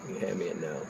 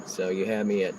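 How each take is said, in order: First: Quiet aside. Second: Said in the usual way. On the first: Real, not acted.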